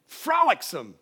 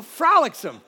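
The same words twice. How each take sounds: First: Said in the usual way. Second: "frolicsome" said louder, with a falling tune; "frolicsome" with gusto. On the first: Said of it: "but it means airy". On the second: Shown as a demonstration. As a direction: give "frolicsome" a joyful push. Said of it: "You know, frolicsome".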